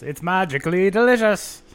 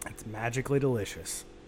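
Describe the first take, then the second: First: It is said in an Irish accent. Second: It is said in his normal accent.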